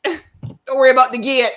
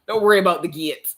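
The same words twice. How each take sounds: First: Much higher and louder, cracking up through granny's line; grandma's reassurance dissolving into giggles; laughing grandma voice. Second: Higher, louder imitation of a soothing granny; light Jamaican grandma reassuring her about the gate. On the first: Retold or imitated. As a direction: repeat granny's words while bursting into laughter. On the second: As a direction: impersonate grandma calming you down. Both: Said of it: "my grandma ... is just like".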